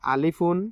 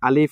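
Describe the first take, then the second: First: The letter name ends with an added -un. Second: The letter name ends without any added ending. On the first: The speaker calls it wrong. "এভাবে কি উচ্চারণ করা যায়? কখনো না।" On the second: The speaker calls it right. "এভাবে উচ্চারণ করলাম"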